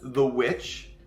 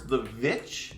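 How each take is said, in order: First: The word begins with a w sound. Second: The word begins with a v sound. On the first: "just said as the witch" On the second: "with like V's at the beginning"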